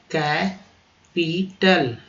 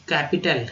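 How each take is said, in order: First: "कैपिटल" split as कै, पी, टल with pauses; very slow, separated "कैपिटल"; syllable by syllable. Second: Said in the usual way. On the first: Shown as a demonstration. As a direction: sound out "कैपिटल" piece by piece for learners. Teacher breaks the word apart.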